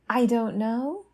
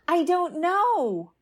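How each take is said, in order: First: It is said with an upward, questioning inflection. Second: It is said sharply, with fear and agitation. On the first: Not knowing becomes an open question. "the upward inflection of the question" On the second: Not knowing feels frightening and urgent. "The fear, agitation, and escalating sharpness"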